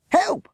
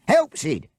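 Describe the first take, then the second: First: Very high, loud desperate scream. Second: High, loud yell to his partner; screaming for help. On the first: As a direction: shriek it, rising in panic. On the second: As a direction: bellow for Sid, desperate. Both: Acted. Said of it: "Bert screamed".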